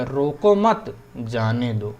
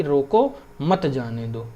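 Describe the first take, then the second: First: रोको मत joined, a break, then slow जाने दो; pause after मत. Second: रोको, then a break, मत जाने दो run together; pause after रोको. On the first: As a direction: put the comma pause straight after मत. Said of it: "यहाँ पे लगा दी अगर मान लो". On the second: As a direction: put the comma pause straight after रोको. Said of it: "यहाँ पे अगर हमने कॉमा लगा दिया". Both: Shown as a demonstration.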